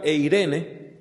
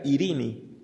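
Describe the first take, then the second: First: It begins with a diphthong, ending in an e sound. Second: It begins with a plain i, ending in i. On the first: This is the ancient pronunciation. "en el griego antiguo se pronunciaba" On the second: This is the modern pronunciation. "hoy se pronunciaría"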